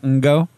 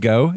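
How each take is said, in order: First: The name starts with an n sound before g. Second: The name starts directly with a g sound. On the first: The speaker calls it wrong. "It's not Ngo" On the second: The speaker calls it right. "It's just go"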